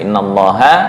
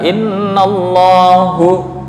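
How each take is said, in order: First: The word ends with an a vowel. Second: The word ends with a u vowel. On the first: The speaker calls it right. "harusnya innallaha" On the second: The speaker calls it wrong. "dibaca innallahu"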